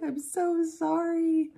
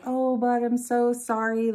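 First: High, slow, teary "I'm so sorry"; crying apology. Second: Louder, higher heartfelt sorry to her son; apologetic. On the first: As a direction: plead through a mild retold sob. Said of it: "I just started crying". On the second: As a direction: apologize to the kid, a bit upset. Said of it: "and I was like". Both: Retold or imitated.

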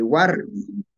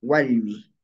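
First: Warmi with a sounded r; R variant. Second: Walmi with l in place of r; L variant. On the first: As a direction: slowly, say Warmi as "WAR-mi". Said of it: "No decimos". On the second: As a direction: say Walmi as "WAL-mi". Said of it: "sino decimos". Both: Shown as a demonstration.

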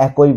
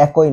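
First: একই said "ækoi", ending in oi; mispronunciation demo. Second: একই said "æki", no o before the i; corrected pronunciation. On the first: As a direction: say একই as æ-koi, the common mistake. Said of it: "একই না, এটা হবে একই". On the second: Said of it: "এটা হবে একই". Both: Shown as a demonstration.

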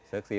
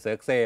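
First: เซิร์กซี ending in a long "ee"; variant ending "see". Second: เซิร์กเซ่ ending in an open "eh"; variant ending "seh". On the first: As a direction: say เซิร์กซี with "see" as last syllable. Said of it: "ต้องอ่านว่าอะไรยังไม่รู้เลย". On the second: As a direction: say เซิร์กเซ่ with "seh" as last syllable. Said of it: "บางที่ก็เซิร์กเซ่". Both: Shown as a demonstration.

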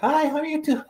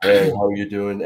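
First: Much higher, thin playback voice; recorded voice. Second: Low and full, how you think you sound; own voice as you hear it. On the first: Podcaster mimicking his voice on tape playback, much higher. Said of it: "but I sound like this". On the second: Podcaster showing how his voice sounds in his head, low. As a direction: say it in your lower inner voice. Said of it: "I thought I sounded like this". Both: Shown as a demonstration.

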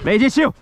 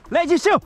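First: Calling out. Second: High loud call to the horse; calling out higher. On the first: Calling horse by name. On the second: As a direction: call her name up high. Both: Real, not acted.

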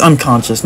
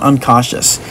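First: "unconscious" with an n sound in the middle, con-shus; pronounced "unconscious". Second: "uncautious" with no n in the middle, caw-shus; mispronounced as "uncautious". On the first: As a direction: say "unconscious" with a clear "kon" in the second syllable. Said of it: "I think it's pronounced unconscious". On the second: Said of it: "not uncautious". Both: Shown as a demonstration.

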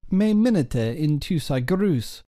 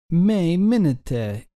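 First: Said in the usual way. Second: Me minete said slowly, each syllable drawn out; teacher sounding out Me minete slowly for students; slow model pronunciation. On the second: Shown as a demonstration. Slow, emphatic model reading.

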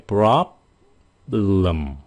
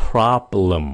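First: "Problem" slow, lips shut and held before "lum"; closed-lip B. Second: Said in the usual way. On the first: Shown as a demonstration. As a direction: stop on the B midway through "Problem". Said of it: "Đóng ngoài lại". (đọc chậm "Problem", ngậm môi giữ âm B) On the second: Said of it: "Nghe kỹ đi nha".

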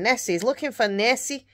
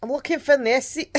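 First: Said in the usual way. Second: A weak, higher-pitched attempt at a Scottish accent; half-hearted Scottish accent; bad Scottish accent. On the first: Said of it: "I can't do my Scottish accent". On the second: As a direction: have a go at a Scottish accent and miss. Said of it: "I can't do my Scottish accent very well tonight".

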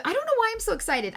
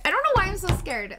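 First: High, fast and giddy; bubbling over like a little schoolgirl; giddy excitement. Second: Nervous scared. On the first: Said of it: "giddy and happy like a little schoolgirl". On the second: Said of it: "I'm scared". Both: Real, not acted.

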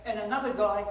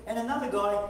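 No difference in how they are said.

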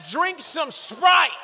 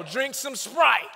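First: Sprite shouted high and slow, falling; loud scolding. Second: Said in the usual way. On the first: Shown as a demonstration. Scolding parent prescribing soda, shouted slow. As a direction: belt "Drink some Sprite" slowly.

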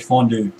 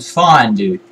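First: "fondue" pronounced FON-doo. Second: "fondue" pronounced FINE-doo. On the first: Retold or imitated. Gamer quoting the other player's take, fondue as "fon-doo". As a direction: say "fondue" with a first syllable like "fon". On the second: Shown as a demonstration. Gamer insisting on their own take, fondue as "fine-doo". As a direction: say "fondue" with a first syllable like "fine". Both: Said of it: "like, French and one was Norwegian".

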